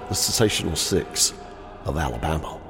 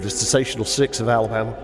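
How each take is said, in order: First: The phrase is said at a slow pace. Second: The phrase is said at a quick pace. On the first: The speaker calls it right. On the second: The speaker calls it wrong.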